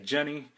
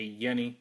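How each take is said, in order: First: The name begins with a J sound. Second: The name begins with a Y sound. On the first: The speaker calls it wrong. "A lot of people say Jenny" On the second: The speaker calls it right. "it's pronounced with a Y"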